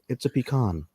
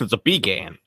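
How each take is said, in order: First: Pecan is said the Northern US way. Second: Pecan is said the Southern US way. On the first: This is how people say it up north. "You live up north" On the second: This is how people say it down south. "If you live down south"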